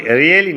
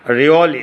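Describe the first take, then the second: First: Really as "ri-e-li"; wrong pronunciation. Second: Really as "ri-o-li"; correct pronunciation. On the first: Teacher shows students what to avoid, wrong pronunciation. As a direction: use an E in the middle of really. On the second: Teacher models the word for students, correct pronunciation. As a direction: round the middle vowel of really. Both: Shown as a demonstration. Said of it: "really না".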